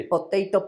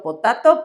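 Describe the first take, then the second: First: "Potato" said as po-TAY-to; alternate pronunciation. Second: "potato" said as po-TAH-to; alternate pronunciation. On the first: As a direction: give "Potato" an English long AY in the middle. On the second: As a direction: open AH in the middle of "potato". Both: Shown as a demonstration. Two pronunciations of one word contrasted.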